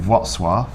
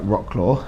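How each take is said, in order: First: The name is pronounced differently from its English spelling. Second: The name is pronounced as its English spelling suggests. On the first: The speaker calls it right. "you do not say it how it's spelled" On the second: The speaker calls it wrong. "on paper it looks like Rocklaw"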